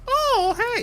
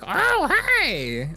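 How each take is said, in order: First: It is a smooth Mario-like voice. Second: It is a gravelly Mario-like voice.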